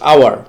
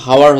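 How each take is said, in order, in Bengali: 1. শব্দটি স্বরধ্বনি দিয়ে শুরু হয়। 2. শব্দটি এইচ ধ্বনি দিয়ে শুরু হয়। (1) "এইচ এর উচ্চারণটা এখানে বাদ পড়তেছে, জাস্ট আওয়ার" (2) "এখানে এইচ এর উচ্চারণটা হচ্ছে না, হাওয়ার হচ্ছে না"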